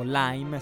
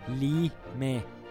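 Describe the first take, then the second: First: The word is pronounced the English way. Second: The word is pronounced the Italian way.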